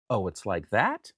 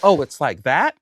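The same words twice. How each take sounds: First: Slow, low, softer challenge; low-key challenge. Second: Pointed, louder retold challenge. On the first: Retold or imitated. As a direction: draw it out quietly, lower. First take of his challenge. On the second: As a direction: throw it out louder, rising at the end.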